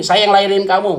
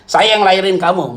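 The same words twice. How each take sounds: First: Said in the usual way. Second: The parent's words through laughter; laughing mock parent. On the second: Pastor mocks a stubborn mother, laughing. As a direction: laugh while quoting mom. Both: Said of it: "Eh, dia bilang ini".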